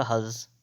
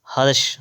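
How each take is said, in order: First: "हर्ष" softer, ending in s; corrected form. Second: "हर्ष" ending in sh; first sibilant. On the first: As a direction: say "हर्ष" as hars. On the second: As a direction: say "हर्ष" as harsh. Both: Shown as a demonstration. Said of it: "तो होता है आपका".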